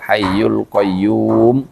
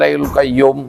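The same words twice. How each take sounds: First: The vowel in qayyum is drawn out long. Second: The vowel in qayyum is kept short. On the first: The speaker calls it right. "sempurnanya adalah ... dipanjangin dikit karena ada wawunya" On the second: The speaker calls it wrong. "ya berarti kurang wawunya kalau begitu"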